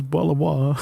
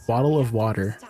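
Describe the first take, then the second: First: Jokey British, t's swallowed; mock British bottle of water; British accent. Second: Said in the usual way. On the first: Shown as a demonstration. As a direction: put on a glottal-stop British accent. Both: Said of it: "I can do a British accent".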